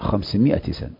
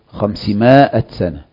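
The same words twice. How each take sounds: First: The vowel after the m is a short i. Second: The vowel after the m is a long a. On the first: The speaker calls it right. "لا 500 سنة" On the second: The speaker calls it wrong. "من ليس من الفصاحة تقول 500 سنة"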